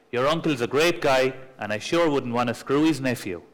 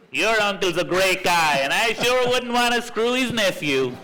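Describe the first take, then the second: First: Said in the usual way. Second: Higher, mock American accent all the way through. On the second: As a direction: put on a brash American car dealer's accent. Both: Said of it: "Say this with an American accent".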